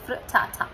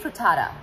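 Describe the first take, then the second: First: It is said with a British pronunciation. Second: It is said with an American pronunciation.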